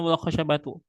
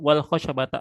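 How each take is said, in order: First: The word ends with a 'u' vowel. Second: The word ends with an 'a' vowel. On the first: The water and the stick both became still. "bisa dibaca dengan wal khosyabatu sebagai atof" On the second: The water became still along with the stick. "Bisa juga dibaca dengan wal khosyabata sebagai ma'iyah"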